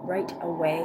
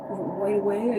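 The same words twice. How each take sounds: First: Said in the usual way. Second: "right away" with the r slipping to a w; tongue-tied "right away", sounding like "wight away"; stumbled pronunciation. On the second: Real, not acted. Fumbling words while consoling a viewer, tongue-tied "right away". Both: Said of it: "I can talk".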